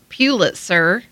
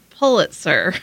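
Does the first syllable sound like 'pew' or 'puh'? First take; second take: pew; puh. First: The first syllable sounds like 'pew'. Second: The first syllable sounds like 'puh'. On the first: The speaker calls it wrong. "it's not Pulitzer" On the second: The speaker calls it right. "it's Pulitzer. ... So it's P-U-H"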